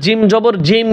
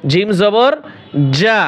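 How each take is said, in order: First: জিম repeated whole in place of the syllable যা; wrong spelling-out. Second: Rising জবর, pause, then short যা; correct spelling-out. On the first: Teacher showing students' mistake, closing on the letter name জিম. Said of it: "নিচে এসে বলে". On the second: Teacher correcting the students' mistake, short যা after a pause. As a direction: close on the short open syllable যা. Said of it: "অনেকে পড়ে কি জিম জবর জিম". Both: Shown as a demonstration.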